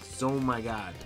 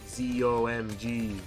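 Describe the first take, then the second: First: It is said as one blended word. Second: Each of the four letters is said separately. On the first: The speaker calls it right. "That's how you say it, right?" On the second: The speaker calls it wrong. "Why would you make it 4 syllables when it doesn't need to be 4 syllables?"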